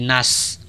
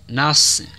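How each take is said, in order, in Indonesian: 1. Na dan s keduanya ringan. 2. Na ringan; s berat. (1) "Juga bukan shod-nya ditipiskan sehingga bunyinya menjadi nas" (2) "Akan tetapi na-nya tipis dan shod-nya tebal"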